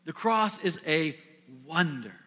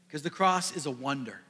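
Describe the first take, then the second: First: The cross is a, a held pause, then wonder falling; pause before wonder. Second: Said in the usual way. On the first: Shown as a demonstration. Preacher savouring the phrase to the congregation, a pause before wonder. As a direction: let wonder land after a beat. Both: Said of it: "I like that phrase".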